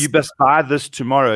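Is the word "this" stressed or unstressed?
unstressed. The word this is not stressed.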